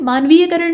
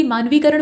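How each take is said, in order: First: मानवीयकरण with ya before karan; extra middle syllable in मानवीयकरण. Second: मानवीकरण with ee straight into karan; no extra syllable in मानवीकरण. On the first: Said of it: "नहीं बल्कि मानवीकरण होता". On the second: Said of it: "मानवीकरण होता है". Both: Shown as a demonstration.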